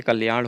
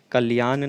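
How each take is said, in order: First: कल्याण ending in a retroflex flapped n; correct form. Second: कल्याण ending in a dental n; wrong form. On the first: Teacher giving the correction, कल्याण with retroflex final n. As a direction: curl the tongue on the end of कल्याण. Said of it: "कल्याण होता है". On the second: Teacher rejecting a spelling, कल्याण with plain dental n. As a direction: say कल्याण as "kaliyaan". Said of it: "कल्याण नहीं होता है". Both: Shown as a demonstration.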